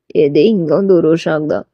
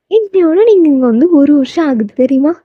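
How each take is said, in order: First: Low man's echoing question; low-pitched, questioning male character; voiced male lead. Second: Put-on higher, eager girl's voice; heroine's high, lilting question; voiced heroine. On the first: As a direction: repeat it back in his deeper voice. Taeyang echoes her in low voice. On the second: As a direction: announce it brightly to him in a higher voice. Heroine announces the anniversary to Taeyang.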